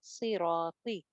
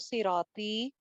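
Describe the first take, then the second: First: The final vowel is short. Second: The final vowel is long. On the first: The speaker calls it right. "Second है" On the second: The speaker calls it wrong. "तो वो तो पहले वाला वर्ड था"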